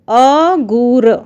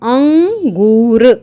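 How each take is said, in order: First: It is said without a nasal after the first vowel. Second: It is said with a nasal after the first vowel. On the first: It is not a real word. The speaker calls it wrong. "अगूर कोई शब्द नहीं होता" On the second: It means grapes. The speaker calls it right. "अनुस्वार लगने से ये हो जाएगा अंगूर"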